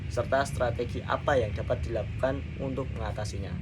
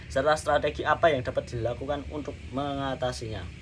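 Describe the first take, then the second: Both takes have the same delivery.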